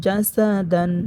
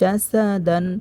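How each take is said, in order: The two takes are said the same way.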